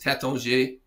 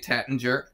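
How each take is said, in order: First: The name is said with a French pronunciation. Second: The name is said with an American pronunciation. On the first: It is how native speakers say it. "which is how French people would say it" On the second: It is how English speakers usually say it. "Most Americans is say Tattinger"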